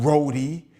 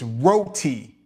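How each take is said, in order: First: It is said in a New York accent. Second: It is said in a Trinidadian accent.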